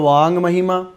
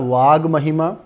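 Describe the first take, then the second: First: The consonant before mahima is a nasal ng. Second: The consonant before mahima is a plain g. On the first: "पांचवा अक्षर अनुनासिक संधि में" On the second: "तीसरा अक्षर जस्व संधि में"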